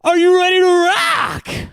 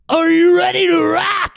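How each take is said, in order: First: The voice is fairly smooth, not raspy. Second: The voice is rough and raspy.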